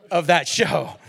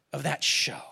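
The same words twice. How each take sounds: First: Voiced, a bit louder, laughing through it; laughing retort. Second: Breathy hushed whisper, barely voiced; whispered aside. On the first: Pastor repeats his retort to the family, laughing. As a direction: land it with a laugh. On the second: Real, not acted. Preacher confides to the congregation in a hushed whisper. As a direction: let it drop to a secret whisper. Aside about the show's content.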